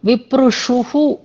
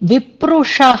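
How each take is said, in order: First: The word ends in an added -shuhu. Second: The word ends in a plain -sha. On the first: The speaker calls it wrong. "విప్రుషుహు అన్నారు" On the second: The speaker calls it right. "విప్రుష అనేది పదం"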